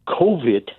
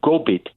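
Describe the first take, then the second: First: It has a V sound in the middle. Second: It has a B sound in the middle. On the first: "she was saying uh, COVID" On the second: "but using the Mi'kmaq pronunciation Gobit"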